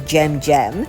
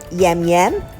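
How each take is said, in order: First: The name begins with an English J sound. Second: The name begins with a Y sound. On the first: This is how an English reader would read the sign. The speaker calls it wrong. "English is only my second language, and if I were to look at the signboard instantly, I would call this place a Jam Jam" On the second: This is how the name is read in Slovenian. The speaker calls it right. "they pronounce the J differently, so I would hazard a guess here"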